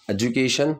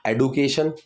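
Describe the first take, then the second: First: एजुकेशन, the right way with j; correct pronunciation. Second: एडुकेशन said with a hard retroflex d, "e-du-ka-shun"; एडुकेशन as the common mistake, hard d; wrong pronunciation. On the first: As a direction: say एजुकेशन with J in place of D. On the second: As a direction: say एडुकेशन with a blunt D, not J. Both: Shown as a demonstration. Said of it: "एजुकेशन की pronunciation".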